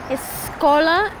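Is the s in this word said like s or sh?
s. The s is said with a plain s sound. "en São Paulo es más escola"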